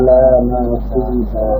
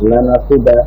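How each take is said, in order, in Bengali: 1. হরকতগুলো ধীরে টেনে বলা হয়। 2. ছোট হরকতগুলো তাড়াতাড়ি বলা হয়। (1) "তাহলে তাড়াতাড়ি হলো না।" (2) "হরকতের উচ্চারণ তাড়াতাড়ি, কুইকলি।"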